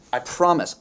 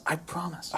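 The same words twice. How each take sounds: First: Said in the usual way. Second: Whispered promise. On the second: Real, not acted. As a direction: drop to a soft whisper. Same promise repeated as whisper.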